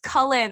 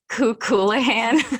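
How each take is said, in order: First: The name is said to sound like 'Cullen'. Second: The name is said with a different, longer ending. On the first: The speaker calls it right. "it's pronounced Cullen, like the Cullens from fucking Twilight" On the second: The speaker calls it wrong. "I kept calling him Kukulahan"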